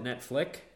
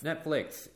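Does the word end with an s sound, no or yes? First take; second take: no; yes. First: The word ends without an s sound. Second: The word ends with an s sound. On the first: There is only one show to watch. "He calls it Netflix. Like there's just one show on there" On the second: There are many shows to watch. "there's an S at the end because there's a bunch of flicks"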